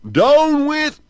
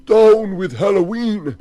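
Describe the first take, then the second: First: Very high, loud squeak; man's shout turning froggy; changing voice. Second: High, loud angry shout; man trying to shout down Halloween; intended shout. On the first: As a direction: let it squeak out as he turns into a frog. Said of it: "but it came out". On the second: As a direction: bellow it as he means to. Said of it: "He wanted to say". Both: Acted.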